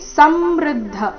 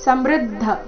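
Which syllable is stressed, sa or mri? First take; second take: sa; mri. First: The stress falls on the first syllable. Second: The stress falls on the second syllable. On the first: The speaker calls it wrong. "ಈ ರೀತಿ ಬೇಡ. ಸ ಮೇಲೆ ಆಘಾತ ಬರಕೂಡ್ದು" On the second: The speaker calls it right. "ಮೃ ಮೇಲೆ ಆಘಾತ ಬರಬೇಕು"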